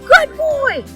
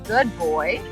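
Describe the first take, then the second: First: It is said in a high, excited voice. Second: It is said in a calm, even voice. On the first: The praise overstimulates the listener. The speaker calls it wrong. "it might get him too excited and he can't focus" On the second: The praise keeps the listener settled and focused. The speaker calls it right. "a tone of voice that doesn't overexcite him"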